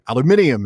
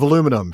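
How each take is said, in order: First: It is said the British way, with five syllables. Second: It is said the American way, with four syllables. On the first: The speaker picked up the habit in the UK. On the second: This is the speaker's usual way of saying it.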